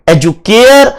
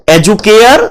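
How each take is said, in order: Both takes have the same delivery.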